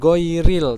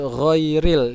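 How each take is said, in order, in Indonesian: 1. Ia dimulai dengan bunyi g yang keras. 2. Ia dimulai dengan bunyi gh yang berat dari tenggorokan. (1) "jangan goiril" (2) "tapi ghairil"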